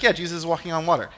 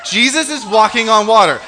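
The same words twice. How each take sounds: First: Quick, offhand, unimpressed delivery; mock over-familiar. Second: Loud, high, laughing amazement; amazed exclamation. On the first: Preacher imitating people who've heard it before, offhand. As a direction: toss it off as old news. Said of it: "we've heard it a million times". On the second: Acted. Preacher reacting to the miracle for the congregation, amazed. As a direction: marvel at it loudly, pitched up. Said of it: "It's crazy. Oh my gosh".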